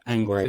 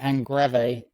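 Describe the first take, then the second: First: The name is said with English pronunciation. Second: The name is said with Spanish pronunciation. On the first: This is the name's own pronunciation. "but it's Ang Angrave" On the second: This is how people in Spain say it. "they call me Angrave, which is quite nice"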